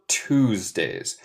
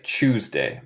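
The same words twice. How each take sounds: First: Tuesdays in her American accent, starting "tooz"; own American accent. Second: Tuesday the British way, starting "chooz"; English accent. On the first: Teacher contrasts her accent with England's, American accent. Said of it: "Esto es mi acento". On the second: Teacher imitating how people in England say it, British accent. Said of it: "ellos de Inglaterra dicen más como C H". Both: Shown as a demonstration.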